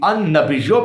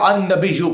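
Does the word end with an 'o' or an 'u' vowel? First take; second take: o; u. First: The word ends with an 'o' vowel. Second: The word ends with an 'u' vowel. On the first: "ये यू या यो पढ़ना ये गलती नहीं है" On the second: "ये यू या यो पढ़ना ये गलती नहीं है"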